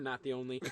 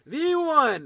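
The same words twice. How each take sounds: First: Said in the usual way. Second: Loud, high drawn-out announcer call; fighting game announcer. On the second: Pretend. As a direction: boom it out for the crowd. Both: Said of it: "get my announcer voice on".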